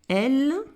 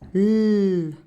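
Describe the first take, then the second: First: The letter is said as its full name. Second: Only the letter's bare sound is made.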